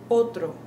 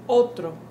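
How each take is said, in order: No difference in how they are said.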